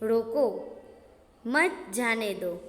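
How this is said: The pause comes after the word roko. Stop him; do not let him go.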